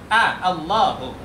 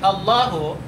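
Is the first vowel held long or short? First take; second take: long; short. First: The first vowel is drawn out long. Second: The first vowel is said short. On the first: It is marked as a question. The speaker calls it right. "A-nya itu dipanjangkan" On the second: It is not marked as a question. The speaker calls it wrong. "kalau kita baca pendek"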